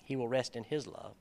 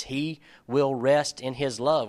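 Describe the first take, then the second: First: Softer, understated repeat of the verse; quiet musing repeat. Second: Slow, weighty reading with LOVE drawn out; emphatic verse reading. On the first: Preacher repeating a verse he found interesting, soft and reflective. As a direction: say it softly, as if turning it over. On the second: Preacher reading the KJV verse to the group, slow and emphatic. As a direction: read it slowly, landing on each part of "rest in his love". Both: Shown as a demonstration.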